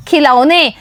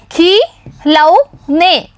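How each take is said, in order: First: Said in the usual way. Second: खिलौने drawn out slowly, syllable by syllable; slow sounding out. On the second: Shown as a demonstration. Teacher reading खिलौने slowly for the children. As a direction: stretch खिलौने out so children can follow. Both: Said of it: "तो पढ़िए".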